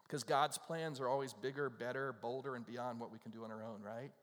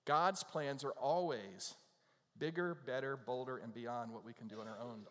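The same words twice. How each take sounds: First: Said in the usual way. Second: "God's plans are always" slowed right down and louder, each word leaned on; slow emphatic repeat. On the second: Shown as a demonstration. Preacher repeating the line to his congregation, slow and emphatic. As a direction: drive the point home word by word.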